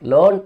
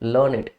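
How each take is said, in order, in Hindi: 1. यह शब्द एक सिलेबल में बोला जाता है। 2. यह शब्द दो सिलेबल में बोला जाता है। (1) "यहां पे लर्न वर्ब है तो इसको आप लर्न प्रोनाउंस करते हैं" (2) "जब आप इसको एडजेक्टिव की तरह यूज करेंगे, दिस इज प्रोनाउंस्ड लर्निड"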